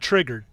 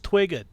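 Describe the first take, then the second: First: The R sounds are said as normal R sounds. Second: The R sounds are replaced by W sounds. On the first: "not triggered" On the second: "He can't pronounce the letter R"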